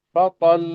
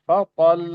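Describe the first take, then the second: Both takes have the same delivery.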